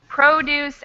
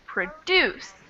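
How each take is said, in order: First: The stress is on the first syllable. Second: The stress is on the second syllable. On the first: It is used as a describing or naming word. "in the adjective form, we have the stress on the first syllable" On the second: It is used as an action word. "in the verb form, stress on the second syllable"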